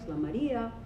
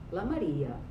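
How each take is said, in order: First: The pitch rises and then falls at the end. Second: The pitch starts high and falls to low. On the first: "like the circumflex" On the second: "high plus low star"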